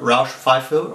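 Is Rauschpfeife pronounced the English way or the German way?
English. It is said with an English-style pronunciation. The speaker calls it wrong.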